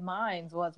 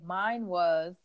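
First: "Mine's was" with an added s on "Mine's", a bit softer; wrong mine's. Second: "Mine was" with no s on "Mine"; correct mine. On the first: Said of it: "but I said". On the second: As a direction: say "Mine" cleanly, no trailing s. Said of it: "supposed to say". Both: Shown as a demonstration.

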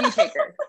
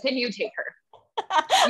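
First: Much higher squeaky repeat; high-pitched comic repeat; mock exasperated squeal. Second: Slow, laughing through the words; slowed-down giggling comeback; laughing retort. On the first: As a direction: squeal it as a joking plea. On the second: Pretend. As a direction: laugh it out as a joke offer. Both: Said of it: "And I'm gonna be like".

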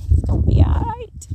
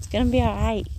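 First: Much higher, louder squeaky reassurance; high playful voice. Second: Said in the usual way. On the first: Pretend. Reassuring viewers again, now in a high squeaky voice. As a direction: sing it up high like a cartoon comforter. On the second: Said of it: "repeated in a different voice".

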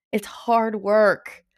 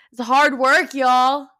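First: Said in the usual way. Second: Louder, punchy repeat; louder insistence to the viewers; emphatic repeat. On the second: Real, not acted. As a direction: hit it harder the second time.

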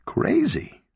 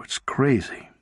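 First: "Crazy?" shot up high in disbelief, falling at the end; incredulous echo. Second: Said in the usual way. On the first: A narrator's reading. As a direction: lob "Crazy?" back at him, much higher and disbelieving. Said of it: "lobbing the word back at him". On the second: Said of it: "Crazy?" repeated Sarah".

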